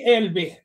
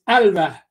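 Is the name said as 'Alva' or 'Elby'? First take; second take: Elby; Alva. First: The name is said as 'Elby'. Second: The name is said as 'Alva'. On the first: The speaker calls it wrong. "I was saying Elby" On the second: The speaker calls it right. "but it's Alva"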